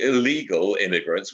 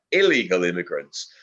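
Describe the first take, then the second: First: Said in the usual way. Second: ILLEGAL picked out firmly against the first take; stress on ILLEGAL. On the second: Real, not acted. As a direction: lean on "illegal" to make the distinction. Corrects by contrast with previous take.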